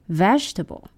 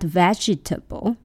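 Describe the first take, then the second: First: The word is said with three syllables. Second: The word is said with four syllables. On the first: The speaker calls it right. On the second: The speaker calls it wrong.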